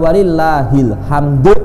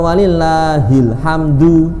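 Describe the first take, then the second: First: The word ends on the consonant, without a vowel. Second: The word ends with a full final vowel. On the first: The reading stops on a vowelless final letter. "Hamdu disukun, itu betul juga" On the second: The reading continues on without stopping. "Itu namanya menggunakan cara baca wasol"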